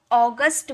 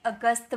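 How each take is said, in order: First: अगस्त opened with a long "aw": AW-gust; English pronunciation. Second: अगस्त with short opening "uh": uh-GUST; Hindi pronunciation. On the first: Teacher shows students the English month name, अगस्त as AW-gust. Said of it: "उसे ... अ का sound निकलता है". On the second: Teacher shows what English learners should avoid, अगस्त as uh-gust. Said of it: "ना कि अगस्त बोला जाता है". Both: Shown as a demonstration.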